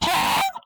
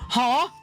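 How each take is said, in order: First: It is said with strong, exaggerated force. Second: It is said mildly, with little force.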